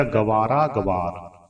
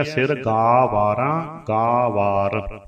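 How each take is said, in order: First: "ਗਵਾਰ" with a short ga, quick first syllable; long vowel dropped. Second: "ਗਾ ਵਾਰ" slow, with a long drawn-out aa in gaa; long vowel held. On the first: Teacher imitates readers' mistake, short first vowel in "ਗਵਾਰ". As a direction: clip "ਗਵਾਰ" to ga-vaar. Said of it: "ਉਹ ਗੱਗੇ ਦਾ ਕੰਨਾ ਛੱਡ ਦਿੰਦੇ". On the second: Teacher shows the full long vowel, slow "ਗਾ ਵਾਰ". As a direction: stretch the first aa of "ਗਾ ਵਾਰ". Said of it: "ਜੋ ਦੀਰਘ ਮਾਤਰਾ ਹੈ". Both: Shown as a demonstration.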